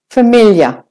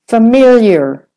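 First: An Australian accent, the I as Y, no final R. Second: An American accent, the I as Y, final R. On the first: "Australian, it's said like the American. Except that there's no R at the end"

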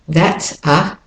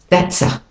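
First: The words are said separately. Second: The words run together smoothly.

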